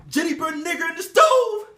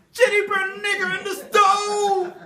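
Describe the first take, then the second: First: Shrill accusation. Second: Higher, slower shout with a laugh; shrill accusation. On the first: Repeated accusation. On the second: Mistress shouting the accusation again, slower and higher. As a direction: draw it out mockingly. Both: Acted.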